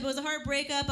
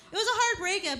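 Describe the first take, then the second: First: Said in the usual way. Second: First take pitched up and louder, a mock wail. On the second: Shown as a demonstration. Comic telling the crowd about the breakup, mock wail. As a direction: wail it with exaggerated heartbreak. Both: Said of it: "repeated line".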